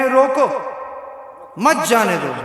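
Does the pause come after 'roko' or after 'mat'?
after roko. The pause comes right after 'roko'.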